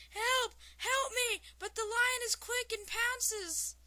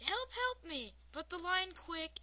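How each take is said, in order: First: High, loud panicked yell; screaming for help. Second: Raised, half-hearted yell for help; toned-down retake of a scream, a little high; mild cry for help. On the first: Mime fleeing a lion in a joke, screaming for help. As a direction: yell it out high like someone being chased. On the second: Reader redoing the mime's plea, milder mock scream. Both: A narrator's reading. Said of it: "the mime starts screaming, yelling".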